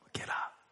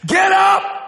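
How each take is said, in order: First: The words are said quietly, without shouting. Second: The words are shouted loudly. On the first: "Or maybe not. Maybe it's like" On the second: "I think he yelled it"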